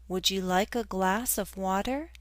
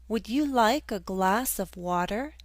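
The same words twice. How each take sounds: No difference in how they are said.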